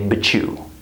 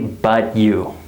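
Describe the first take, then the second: First: The t and you blend into ch. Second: The t and you are kept separate. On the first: The speaker calls it right. "We say but you" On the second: The speaker calls it wrong. "We don't say but you"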